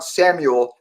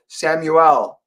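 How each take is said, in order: First: "Samuel" with a reduced last vowel, Sam-yul; everyday pronunciation. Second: "Samuel" with a clear "EL" ending; pronounced as intended. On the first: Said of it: "not Samuel". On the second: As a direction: say "Samuel" as Sam-yu-ELL, last vowel open. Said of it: "it's pronounced like that". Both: Shown as a demonstration.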